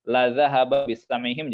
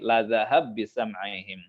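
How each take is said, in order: First: The final vowel is kept and words stay separate. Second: The final vowel drops and the consonants merge. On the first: "kalau baca"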